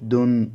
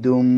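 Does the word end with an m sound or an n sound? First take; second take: n sound; m sound. First: The word ends with an n sound. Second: The word ends with an m sound. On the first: "দাল দুই পেশ দুন" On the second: "এখানে ডাল দুই পেশ দুম বলেছি, কারণ মিম তানবিনের পরে যেহেতু বা এসেছে"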